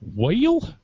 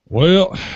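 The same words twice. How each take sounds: First: Well is drawn out into several syllables. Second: Well is clipped to a single syllable. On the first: "add in syllables to words that only have one syllable, like the word well" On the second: "that's like a really enunciated Texan"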